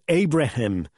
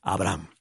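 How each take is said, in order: First: The name is said in a non-Spanish way. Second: The name is said in traditional Spanish way. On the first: "no voy a decir Abraham" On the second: "la pronunciación castiza del nombre Abraham"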